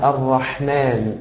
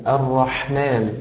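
Both takes have the same delivery.

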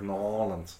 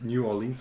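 First: The name is squeezed together into two syllables. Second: The name is said in full with separate syllables. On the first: This is how locals say it. The speaker calls it right. "sondern sagt Norlands" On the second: This is how outsiders say it. The speaker calls it wrong. "der Einheimische sagt nicht New Orleans"

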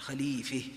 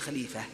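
First: The vowel before the final h leans toward e. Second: The vowel before the final h stays open a. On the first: The speaker calls it right. "هكذا تقول خليفة" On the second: The speaker calls it wrong. "وليس خليفة"

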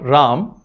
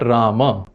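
First: The final vowel is dropped after the m. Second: The final vowel is pronounced after the m. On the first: The speaker calls it wrong. "not Ram" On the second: The speaker calls it right. "but Rama"

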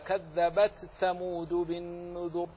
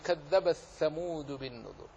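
First: The t is pronounced clearly before the th. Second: The t merges into the following th. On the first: "فمن أظهرها ينطق هكذا" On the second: "ومن أضغمها"

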